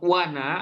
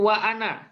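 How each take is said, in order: First: The words link smoothly without a glottal stop. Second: A glottal stop separates the two words.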